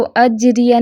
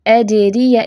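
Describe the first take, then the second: First: अजरिया quick, with a doubled, stuck j; mistaken reading. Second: अजरिया slow, with a bouncing echo on the j; correct tajweed reading. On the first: Teacher shows students the mistake, hurried reading. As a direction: rush अजरिया with a hard j and short vowels. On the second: Teacher models qalqala on jeem, slow careful recitation. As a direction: stretch अजरिया and release the jeem cleanly. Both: Shown as a demonstration. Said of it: "इसको अजरिया नहीं पढ़ना".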